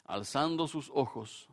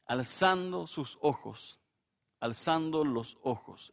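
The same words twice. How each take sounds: First: Said in the usual way. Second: "Alzando sus ojos" drawn out slowly for weight; slow emphasis. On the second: Shown as a demonstration. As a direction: linger on "Alzando" to drive the point home.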